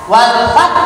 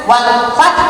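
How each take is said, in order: The two takes are said the same way.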